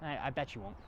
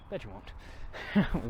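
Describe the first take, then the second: First: Said in the usual way. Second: Slow teasing drawl. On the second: Shown as a demonstration.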